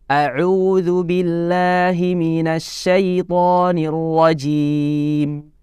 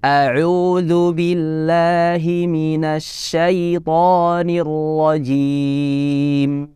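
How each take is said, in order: First: It is recited at a fast pace. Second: It is recited at a moderate, medium pace. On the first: "bacaan yang cepat" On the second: "temponya agak dinaikkan"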